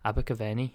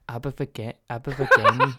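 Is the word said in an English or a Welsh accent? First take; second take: English; Welsh. First: It is said in a plain English accent. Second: It is an attempt at a Welsh accent. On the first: "I can say it British, like normal" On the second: "I can't say Abergavenny in a Welsh accent"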